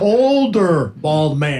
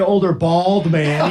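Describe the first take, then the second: First: The stress is on older. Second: The stress is not on older.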